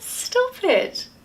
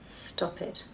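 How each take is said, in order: First: It is said lightly, in a teasing tone. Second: It is said firmly, in a serious tone. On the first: The speaker actually wants it to continue. "Do I mean it? No. I want you to carry on" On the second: The speaker really wants it to stop. "do I mean it? Yeah, I mean stop it"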